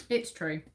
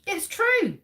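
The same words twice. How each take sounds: First: Said in the usual way. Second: High, loud "true" called out; dramatic reveal. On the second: Real, not acted. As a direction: burst out the answer like a game-show host. Quiz host reveals the answer.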